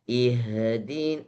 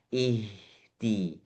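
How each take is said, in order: First: An extra sound escapes after the h. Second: No extra sound escapes after the h. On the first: The speaker calls it wrong. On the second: The speaker calls it right.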